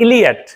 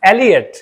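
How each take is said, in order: First: The name begins with an 'ee' vowel. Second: The name begins with an 'eh' vowel. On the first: The speaker calls it wrong. "Not इलियट" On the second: The speaker calls it right. "It's एलियट, लेकिन शुद्ध उच्चारण एलियट है"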